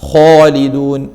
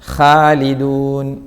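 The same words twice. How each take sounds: First: The first vowel is rounded, sounding like 'ho'. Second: The first sound is heavy with an open vowel. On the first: The speaker calls it wrong. "തൊടിച്ച ഹോ എന്ന് പറഞ്ഞാൽ" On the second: The speaker calls it right. "ഖ തടിയില്ലാത്ത ഖ അല്ല, തടിച്ച ഖ"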